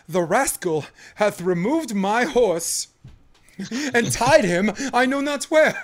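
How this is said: It is delivered in an overdone, theatrical way.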